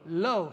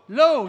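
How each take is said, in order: First: It is said calmly, without much force. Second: It is said emphatically, with more force.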